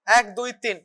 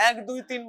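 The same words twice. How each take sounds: First: One, two, three spaced out slowly; slow, deliberate এক, দুই, তিন for the patient to copy; slow counting demo. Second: Said in the usual way. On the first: Shown as a demonstration. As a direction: count এক, দুই, তিন slowly and evenly, each number apart. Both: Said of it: "এরকম ভাবে".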